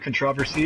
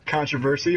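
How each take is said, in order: First: The word is said the British way. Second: The word is said the American way.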